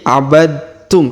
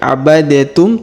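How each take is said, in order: First: The d blends straight into the t. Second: The d is released separately before the t. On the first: The speaker calls it right. "tapi abadtum karena ada tanda tasdid di sini" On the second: The speaker calls it wrong. "Bukan lagi abadetum"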